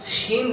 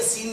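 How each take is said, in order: First: The word begins with a "sh" sound. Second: The word begins with an "s" sound. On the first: The speaker calls it right. "अल्लाह मेरे लिए शीन निकालना आसान कर दो" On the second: The speaker calls it wrong. "बोल रहा है शीन लेकिन निकल रहा है सीन"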